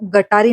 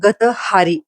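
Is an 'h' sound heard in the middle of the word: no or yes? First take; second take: no; yes. First: It is said without an h sound in the middle. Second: It is said with an h sound in the middle. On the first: The speaker calls it wrong. "हा उच्चार सुद्धा खूप चुकीचा घेतलेला आहे" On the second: The speaker calls it right. "तो शब्द गटारी नसून गतहारी असा आहे"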